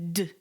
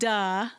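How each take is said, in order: First: The consonant is said alone with no vowel. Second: The consonant is followed by an added uh vowel. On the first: The speaker calls it right. "It's d" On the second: The speaker calls it wrong. "Don't drop your jaw. It's not duh"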